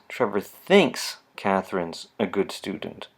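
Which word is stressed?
thinks. The word thinks carries the strongest stress. It is only a belief and may not be true. "move the focal stress to the next word"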